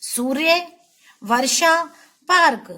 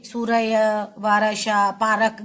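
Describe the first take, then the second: First: सूर्य, वर्षा, पार्क with the r clusters joined, no extra vowel; सूर्य वर्षा पार्क said right, the र closed onto the next sound; correct pronunciation. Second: सूर्य said su-ra-ya, वर्षा said va-ra-sha, पार्क said pa-ra-k; सूर्य वर्षा पार्क mispronounced on purpose with a vowel after र; wrong pronunciation. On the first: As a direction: say सूर्य, वर्षा, पार्क cleanly with a firm final पार्क. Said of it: "आपको बोलना है". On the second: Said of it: "आप ऐसे नहीं बोलोगे". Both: Shown as a demonstration.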